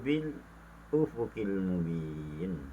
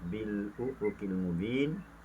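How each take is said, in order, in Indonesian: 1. Ada jeda singkat sebelum 'ufuqil'. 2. Kata-katanya tersambung tanpa jeda. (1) "berhenti seketika dalam kadar dua harakat" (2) "wajah tahqiq"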